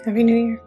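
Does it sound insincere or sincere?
insincere. It sounds flat and insincere.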